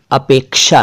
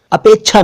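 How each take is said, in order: First: अपेक्षा said "apeksha", with k plus sh; correct ksh pronunciation. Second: अपेक्षा said as "apechchha", chh in place of ksh; mispronounced chh. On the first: Teaching the right pronunciation, अपेक्षा said clearly as "apeksha". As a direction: sound both k and sh in अपेक्षा. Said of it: "सही उच्चारण अपेक्षा है". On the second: Showing learners the common mistake, अपेक्षा mispronounced as "apechchha". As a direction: say अपेक्षा wrongly with a chh sound, no k. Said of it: "अपेक्षा नहीं, कुछ लोग इसे". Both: Shown as a demonstration.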